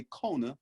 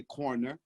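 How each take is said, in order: First: "corner" as "cona", without any r; Southern-style "cona" for "corner"; r-less corner. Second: "corner" with both r's pronounced; r-full "corner", as in standard speech. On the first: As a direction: drop the r's in "corner" to make "cona". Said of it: "I like the way corner sound". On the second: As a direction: say "corner" the proper way, sounding each r. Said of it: "I know how to say corner". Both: Retold or imitated.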